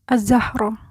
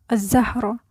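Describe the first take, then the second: Both takes have the same delivery.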